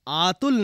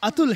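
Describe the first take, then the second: First: The first vowel is drawn out long. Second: The first vowel is kept short. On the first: The speaker calls it wrong. "इसका नाम आतुल नहीं" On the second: The speaker calls it right. "अतुल है"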